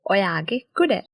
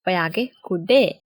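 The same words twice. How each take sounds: First: "Oyage kudaya" with all three syllables of "kudaya" spoken clearly, ku-da-ya; careful textbook "kudaya", the final "ya" kept; full written form. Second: "Oyage kude" with "kudaya" cut to two syllables, ending on "de"; casual spoken "kude", the "ya" dropped; shortened spoken form. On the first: Teacher gives the full form before the spoken short one. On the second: Teacher shows how people really say it in speech. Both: Shown as a demonstration. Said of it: "we make it shorter and pronounce it as kude".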